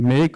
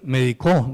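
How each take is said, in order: First: The stress is on the first syllable. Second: The stress is on the last syllable. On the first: It names a doctor. "médico es una palabra esdrújula" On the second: Someone gave medicine in the past. "Y algunas veces aguda"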